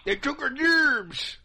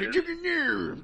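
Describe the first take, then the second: First: Slow, high hick drawl; redneck voice. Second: Mock an angry hick; redneck voice. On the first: Pretend. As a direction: say it like a yokel from the cartoon. South Park quote, slow high. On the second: Third echo of chant.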